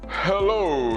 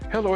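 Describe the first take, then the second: First: The voice sounds arrogant and puffed up. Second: The voice sounds timid and hesitant. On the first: The speaker has too much confidence. "You can hear the tone of arrogance in my voice" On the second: The speaker has too much humility. "the timidity of my voice"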